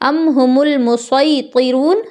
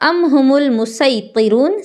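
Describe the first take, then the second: First: The s sound is heavy and emphatic. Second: The s sound is light and plain. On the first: "स्वाद से भी जायज़ है" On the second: "सीन से भी जायज़"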